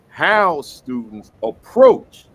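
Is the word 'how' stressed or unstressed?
stressed. The word 'how' is stressed. The speaker calls it right. "How I had to put emphasis on that. ... That's where it should be"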